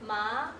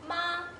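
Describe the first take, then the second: First: The pitch rises from middle to high. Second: The pitch stays high and level.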